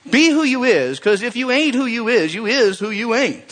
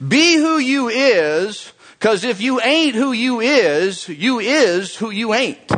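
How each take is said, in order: First: High but quicker repeat of the preacher line; a hint of the Southern preacher; lighter preacher echo. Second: High, slow, drawn-out preacher delivery; hammed-up Southern preacher quote; imitating a Southern preacher. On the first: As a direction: say it again, less stretched. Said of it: "I get animated when I just hear this guy". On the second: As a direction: channel the fiery preacher, stretching each phrase.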